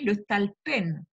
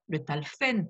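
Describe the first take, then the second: First: The consonant before the last syllable is a p. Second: The consonant before the last syllable is an f. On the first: The speaker calls it right. "suivant les règles de la grammaire hébraïque, se dit le talpen" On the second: The speaker calls it wrong. "Certains prononcent le talfen par assimilation, ce qui est une erreur"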